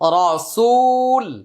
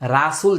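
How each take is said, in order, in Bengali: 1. প্রথম অক্ষরের স্বরটি গোল, 'ও'-র মতো। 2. প্রথম অক্ষরের স্বরটি খোলা, 'আ'-র মতো। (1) "মানে রা আর র" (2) "রাসুল যেন না হয়"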